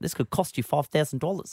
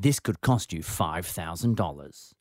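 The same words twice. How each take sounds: First: It is said in an imitated New Zealand accent. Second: It is said in the speaker's ordinary accent.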